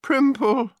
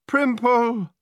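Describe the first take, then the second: First: High-pitched weeping call; tearful wail. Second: High-pitched cry of despair. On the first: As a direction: wail the name as if in tears. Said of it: "wept Gemma". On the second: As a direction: cry out the name in dismay. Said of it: "Gemma, in despair, cried". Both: A narrator's reading.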